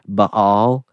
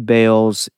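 First: The name has a different, non-American pronunciation. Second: The name has the common American pronunciation. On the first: "It's probably more Baal" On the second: "we say Baals in America"

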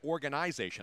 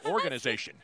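First: It is pronounced the Canadian way. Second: It is pronounced the American way. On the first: "all the Canadians say organization" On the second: "in the America, we say organization"

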